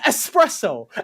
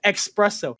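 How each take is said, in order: First: It begins with an 'es' sound. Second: It begins with an 'ex' sound. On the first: This is the proper form. The speaker calls it right. "It's espresso" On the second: This imitates how others say it. The speaker calls it wrong. "There's no X. Why are you saying X?"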